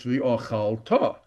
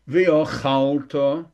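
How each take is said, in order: First: Slow v'ochalta ending on full TA; stress on last syllable. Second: Slow V'ochalta with long CHAL, weak ta; stress before last syllable. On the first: Teacher corrects the word, v'ochalta stressed on final TA. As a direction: land on TA in v'ochalta. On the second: Teacher shows the wrong form, V'ochalta stressed on CHAL. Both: Shown as a demonstration.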